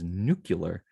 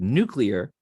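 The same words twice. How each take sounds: First: An extra U sound comes between C and L. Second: The L follows the C directly, no extra vowel. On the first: The speaker calls it wrong. "where there's another U in there that doesn't really belong" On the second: The speaker calls it right. "where the L comes right after the C"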